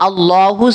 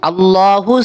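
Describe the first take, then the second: Both takes have the same delivery.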